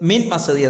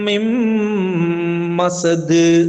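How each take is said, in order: First: The n and m are said separately. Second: The n merges into a nasal, held m. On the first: The speaker calls it wrong. "മിൻ മസദ് എന്നല്ല" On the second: The speaker calls it right. "ഇദ്ഗാം ചെയ്യണം"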